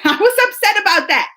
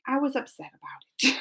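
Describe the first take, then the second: First: High, emphatic playful indignation; upset, half laughing. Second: Said in the usual way. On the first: Real, not acted. Stressing displeasure about Marie Antoinette, playfully upset. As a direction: repeat it higher, with amused outrage.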